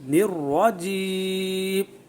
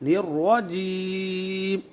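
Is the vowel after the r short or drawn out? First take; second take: short; short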